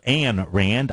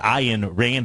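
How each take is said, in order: First: The first name rhymes with 'man'. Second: The first name rhymes with 'mine'. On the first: This is how the speaker usually says it. The speaker calls it wrong. "I call her Anne Rand" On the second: This is the proper way to say the name. The speaker calls it right. "I believe, is the uh, cor- correct pronunciation"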